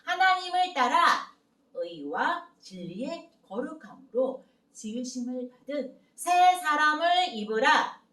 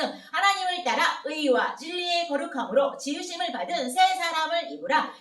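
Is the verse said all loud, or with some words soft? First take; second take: some soft; all loud. First: Only some phrases are loud; the middle is soft. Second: The whole verse is fast and forceful. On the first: "하나님을 따라 새 사람을 입으라. 이 부분은 크게, 나머지는 작은 목소리로" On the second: "속도 백십 킬로미터예요. 힘차게 한번 해볼게요"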